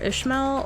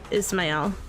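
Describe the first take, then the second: First: The middle consonant is an 'sh' sound. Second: The middle consonant is an 's' sound. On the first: "Ishmael is what I usually say" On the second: "It's probably Ismael"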